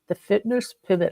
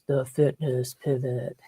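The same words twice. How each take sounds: First: It is said in her normal speaking voice. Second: It is said in a deep, booming put-on voice.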